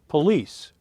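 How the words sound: It is said with a northern US pronunciation.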